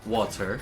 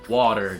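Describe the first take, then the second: First: It is said with a non-American pronunciation. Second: It is said with an American pronunciation. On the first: The speaker calls it wrong. "not water" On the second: The speaker calls it right. "I was like told to say water"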